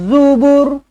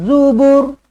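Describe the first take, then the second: Both takes have the same delivery.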